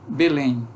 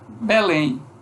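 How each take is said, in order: First: It is said in a Rio accent. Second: It is said in a Belém accent. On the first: "O carioca vai dizer B, Belém" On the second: "Nós dizemos aqui Belém"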